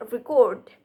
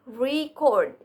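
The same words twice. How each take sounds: First: Record with a short re and weight on CORD, as the verb; stress on second syllable. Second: Record with a long, strong RE, as the noun; stress on first syllable. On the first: Presenter showing stress changes, record stressed on the second syllable. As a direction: push the end of record. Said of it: "how stress changes meaning and word class". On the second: Presenter showing stress changes, record stressed on the first syllable. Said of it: "the word record and record show how stress changes meaning". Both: Shown as a demonstration.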